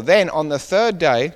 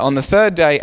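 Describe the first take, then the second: First: "third day" drawn out slowly, each word weighted; "Then on the third day" read slowly, "third" weighted; slow emphasis on third day. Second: "third" punched louder, falling tune; "On the third day" with "third" stressed loud and falling. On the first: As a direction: lean slowly on "third day" to flag it as significant. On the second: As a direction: hit "third" firmly as you resume the reading. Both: Shown as a demonstration. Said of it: "very significant".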